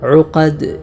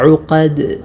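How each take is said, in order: First: The final d ends with an echoing bounce. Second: The same.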